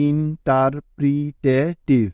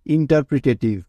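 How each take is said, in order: First: interpretative drawn out slowly, each part separate; teacher slowly spelling out interpretative by sound; slow, syllable by syllable. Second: Said in the usual way. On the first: Shown as a demonstration. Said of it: "প্রথমে ধীরে ধীরে". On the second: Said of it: "একসাথে বলে উচ্চারণ".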